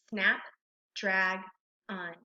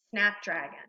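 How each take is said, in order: First: "snap, drag, un" as separate syllables with pauses. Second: Said in the usual way. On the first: Shown as a demonstration. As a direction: read "snap, drag, un" one piece at a time. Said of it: "one syllable at a time". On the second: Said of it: "we're gonna blend it together".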